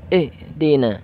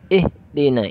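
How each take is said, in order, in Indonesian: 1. Bunyi h terputus secara tiba-tiba. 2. Bunyi h terputus secara tiba-tiba.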